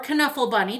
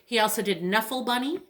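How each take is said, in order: First: Knuffle said kuh-NUFF-ul with the K sounded; hard K in Knuffle. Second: Said in the usual way. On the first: Shown as a demonstration. Librarian offering the other way to say the title, K sounded in Knuffle. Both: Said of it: "depending on how you want to pronounce it".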